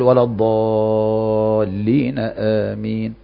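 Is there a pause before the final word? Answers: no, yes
no. The words run on with no pause before amin. The speaker calls it wrong. "يعني ما يقول"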